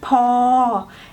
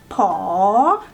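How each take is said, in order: First: The tone stays level. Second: The tone rises.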